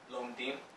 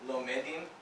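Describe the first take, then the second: First: The two syllables join with no vowel between. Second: A short vowel sounds between the two syllables. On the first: The speaker calls it right. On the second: The speaker calls it wrong.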